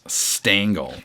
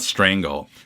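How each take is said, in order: First: No R sound follows the S. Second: An R sound follows the S. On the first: The speaker calls it right. "Alex Stangl" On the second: The speaker calls it wrong. "It's not Strangle"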